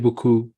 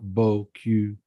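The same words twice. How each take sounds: First: The second syllable has a rounded 'oo' vowel. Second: The second syllable has a fronted 'u' vowel. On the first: It means very much. The speaker calls it right. "you have to be careful to say beaucoup" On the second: It means beautiful ass. The speaker calls it wrong. "and not beaucoup"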